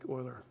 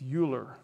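First: The name is said a non-American way. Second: The name is said the American way. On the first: "but I like Euler" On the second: "the American pronunciation is Euler"

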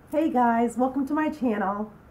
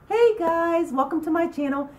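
First: It is said in a mellow, low-energy way. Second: It is said in an upbeat, energetic way.

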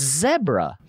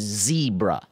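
First: The first vowel is a short 'eh' sound. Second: The first vowel is a long 'ee' sound. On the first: The speaker calls it right. "It's zebra. Because what Durr said, Deborah, zebra" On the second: The speaker calls it wrong. "There's no way the word is zebra"

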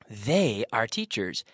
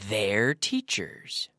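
First: They and are are said as two full words. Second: They and are are merged into one syllable.

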